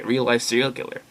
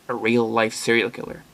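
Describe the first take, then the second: First: The voice sounds excited and intrigued. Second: The voice sounds worried and uneasy. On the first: This is something thrilling to be curious about. "a part of me is kind of interested, like, oh hey" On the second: This is something dangerous to be afraid of. "Like, watch your back and be very careful"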